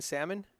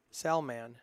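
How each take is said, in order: First: Salmon as SAM-un, no L; slurred name pronunciation. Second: Salman as SAL-man with a sounded L; corrected name pronunciation. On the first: Commentator checking his own mistake, swallowed-L pronunciation. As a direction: say salmon like the fish. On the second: Commentator practising the player's name, careful pronunciation. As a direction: Salman in two full syllables. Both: Shown as a demonstration. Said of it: "have I been saying salmon".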